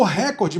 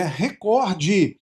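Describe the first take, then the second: First: "recorde" stressed on the first syllable, RÉ-cor-de; wrong first-syllable stress. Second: "recorde" drawn out slowly with stressed COR; stress on second syllable. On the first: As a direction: hit the opening RÉ of "recorde". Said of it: "Muita gente pronuncia como recorde". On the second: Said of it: "mas não, é recorde". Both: Shown as a demonstration.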